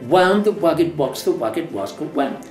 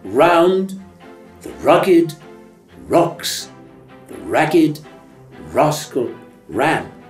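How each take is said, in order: First: Each R is said like a W. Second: Each R is said as a clear R. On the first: The speaker calls it wrong. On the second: The speaker calls it right.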